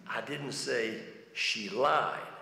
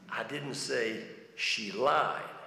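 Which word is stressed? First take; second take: lied; lied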